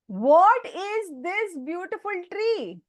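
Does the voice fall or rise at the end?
fall. The voice falls at the end, like a statement. It is read as a statement. The speaker calls it wrong. "you should read it like a full stop"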